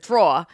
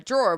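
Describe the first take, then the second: First: The word is said in a New Jersey accent. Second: The word is said in a general accent. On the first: "if you're from New Jersey, your clothes are in the drawer" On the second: "so you keep your clothes in a drawer"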